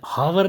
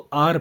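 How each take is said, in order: First: The word begins with a breathy h sound. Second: The word begins directly with a vowel sound. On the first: The speaker calls it wrong. "आर हावर नहीं पढ़ते" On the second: The speaker calls it right. "इसको आर पढ़ते हैं"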